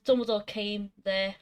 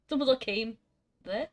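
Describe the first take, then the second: First: Said in the usual way. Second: Deliberate gap between "came" and "there"; pause before THERE. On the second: Shown as a demonstration. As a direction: hold back after "came", then add "there". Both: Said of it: "You really gotta add that second, that next word".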